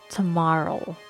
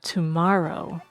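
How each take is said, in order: First: The word is said fast and squashed together. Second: The word is said fully and carefully. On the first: "something like tomorrow. Because they're just trying to say it so fast" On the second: "the word tomorrow"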